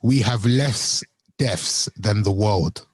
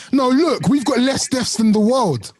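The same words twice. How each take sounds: First: Slow, low deadpan quote; straight-faced. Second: High-pitched, incredulous mock quote; Trump. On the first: Retold or imitated. Co-host quoting the Trump clip to friends, straight-faced. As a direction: drag it out low, imitating a straight-faced claim. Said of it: "with a straight face". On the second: Co-host acting out Trump with his paper, high mocking voice. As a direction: pitch it way up and stretch it, imitating his protest. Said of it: "he took a piece of paper and he said".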